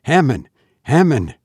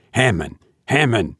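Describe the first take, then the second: First: Urgent call for help, pitch climbing; frightened cry to a friend. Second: Despairing plea to Hammond; despairing cry. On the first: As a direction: call his name in alarm. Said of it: "I cried". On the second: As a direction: call him weakly, losing hope. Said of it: "I cried again, despairingly". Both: A narrator's reading.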